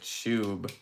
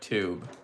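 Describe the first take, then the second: First: The word is said in a British accent. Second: The word is said in a plain accent.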